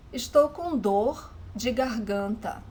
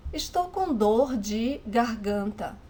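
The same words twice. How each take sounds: The two takes are said the same way.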